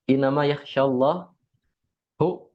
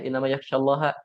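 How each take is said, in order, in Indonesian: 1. Kata Allah berakhir dengan vokal u. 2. Kata Allah berakhir dengan vokal a. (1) "ada seorang dai membaca" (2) "mesti kita baca apa? Yang kedua ya"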